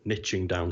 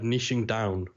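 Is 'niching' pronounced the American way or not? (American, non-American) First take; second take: American; non-American. First: The word is said with an American pronunciation. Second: The word is said with a non-American pronunciation. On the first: The speaker calls it wrong. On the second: The speaker calls it right.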